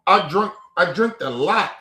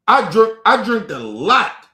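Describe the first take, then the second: First: Said in the usual way. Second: Put-on "I drunk, I drank a lot" louder and slower, each word hit; emphatic restatement. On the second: Shown as a demonstration. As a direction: hammer it home so it is clear. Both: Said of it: "Let's get this shit very clear".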